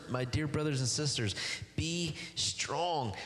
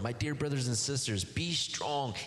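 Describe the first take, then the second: First: Be strong lifted high and stretched, be stressed; tender emphasis. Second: Said in the usual way. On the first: Shown as a demonstration. Preacher savoring the verse to his church, high tender emphasis. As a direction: savor the words My dear brothers and sisters, be strong. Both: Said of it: "I love that, those words".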